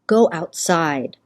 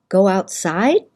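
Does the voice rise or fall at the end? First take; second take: fall; rise. First: The voice falls at the end. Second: The voice rises at the end.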